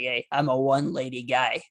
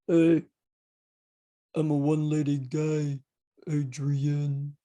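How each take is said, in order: First: It is said in his normal voice. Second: It is said in a Rocky impression.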